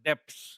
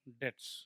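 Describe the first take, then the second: First: The word ends with a 'ps' sound. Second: The word ends with a 'ts' sound. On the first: The speaker calls it wrong. "डेप्स डेप्स बोलते हैं बहुत लोग" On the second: The speaker calls it right. "B silent रहता है"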